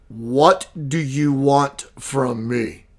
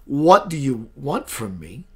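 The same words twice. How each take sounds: First: Slow, lower, a lightly voiced masculine presence; a hint of a powerful being, drawn out; masculine entity voice. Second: Said in the usual way. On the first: Retelling the alien greeting, slow and lightly masculine. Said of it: "the energy that came out of her was very, very masculine". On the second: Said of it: "that's a strange way to greet a person".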